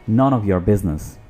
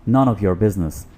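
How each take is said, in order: The two takes are said the same way.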